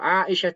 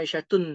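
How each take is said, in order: First: The name ends without an added 'un' sound. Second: The name ends with an added 'un' sound. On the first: The speaker calls it right. "tidak bertanwin" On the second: The speaker calls it wrong. "Tak tak boleh dibaca Aisyatun, salah"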